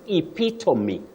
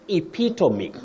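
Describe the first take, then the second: The two takes are said the same way.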